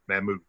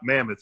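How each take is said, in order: First: It is said with a Dutch pronunciation. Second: It sounds like the English word mammoth. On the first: The speaker calls it right. "It's Dutch for uh, for the woolly mammoth" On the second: The speaker calls it wrong. "it's not mammoth"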